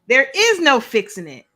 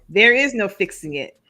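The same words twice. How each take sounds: First: It is read dramatically, like a narrator. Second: It is read flatly, without enthusiasm. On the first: The speaker calls it right. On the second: The speaker calls it wrong.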